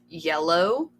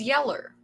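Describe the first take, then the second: First: The word ends in a clear 'oh' sound. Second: The word ends in an 'er' sound. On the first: This is the standard pronunciation. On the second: This is the local Kentucky dialect form.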